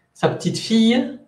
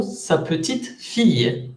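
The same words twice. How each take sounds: First: "Sa petite fille" run together, "fille" rising high; unstressed petite. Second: Slow "Sa petite ... fille", pause before a falling "fille"; stressed petite. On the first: Teacher showing granddaughter intonation, "petite" unstressed before rising "fille". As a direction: skim "petite", put the weight on "fille". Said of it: "petite no tiene acento tónico". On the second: Teacher showing little daughter intonation, "petite" stressed, set apart from "fille". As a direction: give "petite" its own weight, then pause. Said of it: "si la palabra petite tiene cierta fuerza".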